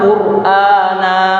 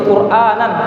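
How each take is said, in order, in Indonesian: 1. Kata ini berakhir dengan vokal polos. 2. Kata ini berakhir dengan bunyi n. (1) "Tapi ketika waqaf berhenti" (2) "Ketika disambung qur'anan arabiyyan, uh, itu nan disebutkan seolah-olah ada uh, nunnya di situ"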